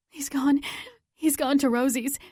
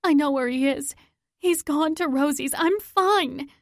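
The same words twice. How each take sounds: First: Gasping out the news between breaths; breathless panting. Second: Higher, louder insistence; urgent shout. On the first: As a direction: speak while out of breath, urgent. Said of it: "I pant". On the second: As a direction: brush off the hospital and push on. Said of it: "I shout". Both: Acted.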